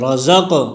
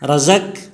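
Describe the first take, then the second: First: The final q sound bounces with an echo. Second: The final q sound is flat, without echo. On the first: The speaker calls it right. "क़ाब में क़लक़ला है, आवाज़ में जुम्बिश होगी" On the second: The speaker calls it wrong. "रज़क गलत है"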